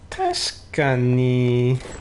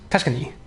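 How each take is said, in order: First: It is said in a doubtful, sarcastic way. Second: It is said in a sure, sincere way. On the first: It is definitely not true. "it can be like yeah, definitely not" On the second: It is certainly true. "you're very certain about it"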